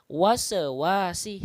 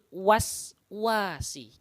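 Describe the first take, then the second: First: An extra vowel follows the first s sound. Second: The first s is closed with no added vowel. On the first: The speaker calls it wrong. "se-nya dihilangkan" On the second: The speaker calls it right. "Yang benar adalah min syarril waswasi"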